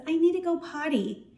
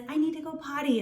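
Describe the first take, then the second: First: Put-on little child. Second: Put-on light, higher child voice, a bit softer; teacher voicing a toddler asking for the potty, gently higher; little Susie. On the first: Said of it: "a little two-year-old runs up to you and says". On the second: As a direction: play a small girl asking to use the toilet. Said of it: "So little Susie says".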